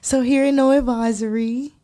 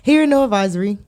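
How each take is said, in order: First: It is said in a sweet, innocent voice. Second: It is said in his normal voice.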